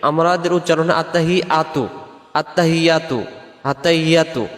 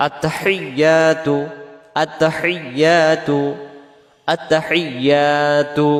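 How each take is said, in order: First: আত্তাহিয়াতু said quick and flat, unstretched, the way people get it wrong; common mistake. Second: Slow আত্তাহিয়াতু with the doubled ত্ত held and the vowels stretched; correct with tashdid. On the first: Teacher showing students the wrong quick আত্তাহিয়াতু. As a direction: rattle off আত্তাহিয়াতু at normal speed like the usual mistake. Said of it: "এই শব্দটাতে আমরা কি ভুল করে ফেলি". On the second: Teacher demonstrating the tashdid in আত্তাহিয়াতু slowly. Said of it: "এই তাসজিদটা সহ আদায় করার জন্য বলতে হবে". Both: Shown as a demonstration.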